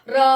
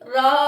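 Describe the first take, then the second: First: The vowel is held briefly, then cut off. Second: The vowel is drawn out for a long time. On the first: "हमने यहां पर आ बोल दिया, मुंह बंद कर लिया" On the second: "ऐसा लग रहा है कि मुंह बंद ही नहीं हो रहा"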